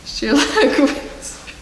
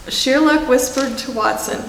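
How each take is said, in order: First: Narration line whispered, pitched up. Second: Said in the usual way. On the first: Shown as a demonstration. Reader playfully whispers the narration to the children. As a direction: breathe the words with no voice. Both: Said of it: "I'm sorry".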